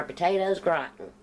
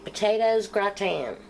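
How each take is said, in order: First: "gratin" said country style, GRAT-in, hard final n; country accent. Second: "gratin" said the French way, gra-TAN; "potatoes gratin" with a French nasal ending; French-style gratin. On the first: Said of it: "with my country accent". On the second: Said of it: "or potatoes gratin with my country accent". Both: Shown as a demonstration.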